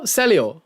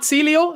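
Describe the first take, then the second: First: Celio said as SELL-ee-oh, falling; corrected pronunciation. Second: Celio said as SEE-lee-oh, questioning; mistaken pronunciation. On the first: Streamer corrects the viewer's name, SELL-ee-oh pronunciation. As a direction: say Celio with a short e, settling downward. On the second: Streamer checks the viewer's name, mistaken SEE-lee-oh pronunciation. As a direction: say Celio with a long ee, rising as a question. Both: Shown as a demonstration. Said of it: "I've been pronouncing your wrong name".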